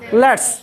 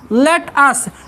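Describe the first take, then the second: First: It is said as one contracted word. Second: It is said as two separate words. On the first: "और short में लिखते हैं" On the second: "अगर अलग लिखते हैं तो होता है लेट अस"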